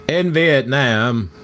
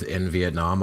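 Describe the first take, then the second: First: Slow, drawn-out Southern drawl; Forrest Gump. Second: Said in the usual way. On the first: Acted. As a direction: stretch it out in a bad Southern accent. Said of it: "I was doing Gump".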